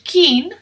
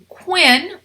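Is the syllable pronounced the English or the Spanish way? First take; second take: Spanish; English. First: It is said with a Spanish pronunciation. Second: It is said with an English pronunciation.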